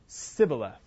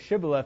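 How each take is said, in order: First: The word begins with an s sound. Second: The word begins with an sh sound. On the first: The speaker is from Ephraim. "they said Sibboleth. They couldn't pronounce the sh sound" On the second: The speaker is not from Ephraim. "they didn't say Shibboleth"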